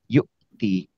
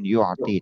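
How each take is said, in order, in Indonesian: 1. Ada hentian glotal ringan sebelum 'ti'. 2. Ada konsonan tenggorokan dalam sebelum 'ti'. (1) "Tapi yu'ti. Biasa hamzah" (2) "Bukan bukan pakai ain. Bukan yu'ti"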